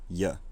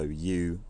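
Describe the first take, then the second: First: The word is said with a reduced vowel. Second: The word is said with a full vowel. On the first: "a weak form, which is in some way phonologically reduced" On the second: "the kind of citation form of a word"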